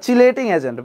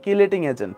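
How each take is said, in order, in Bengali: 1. প্রথম শব্দটি ch উচ্চারণ দিয়ে শুরু হয়। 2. প্রথম শব্দটি k উচ্চারণ দিয়ে শুরু হয়। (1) "অ্যাকচুয়াল প্রোনাউন্সিয়েশনটা কি" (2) "বাংলায় কি বলা হয়"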